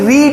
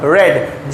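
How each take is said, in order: First: The vowel is long, like in 'reed'. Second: The vowel is short, like in 'red'. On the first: It is the base form of the verb. "ये actual में रीड है, but ये रीड है base form में" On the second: It is the past or past participle form. "Second form और third form में ... बन जाएगा रेड"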